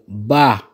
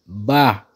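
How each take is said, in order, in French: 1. Le mot est prononcé sur un ton haut. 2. Le mot est prononcé sur un ton haut.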